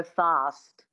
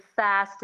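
First: Fast with a long "ah", like "fahst"; broad ah vowel. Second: Fast with a short front "a" as in cat; American-style "a" in fast; flat a, unwanted. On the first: Coach showing the wanted vowel, broad "ah" in fast. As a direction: open fast up to a back "ah". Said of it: "getting that real ah sound". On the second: Coach showing the vowel to avoid, short "a" in fast. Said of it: "get rid of fast and go fast". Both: Shown as a demonstration.

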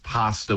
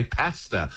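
First: Pasta with the AH vowel; other side's pronunciation. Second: Pasta with the short flat A; British pronunciation. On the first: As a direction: say pasta as "PAH-sta". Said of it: "will say, "What do you mean you say". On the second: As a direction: say pasta as "PASS-ta". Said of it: "We say pasta". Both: Shown as a demonstration.

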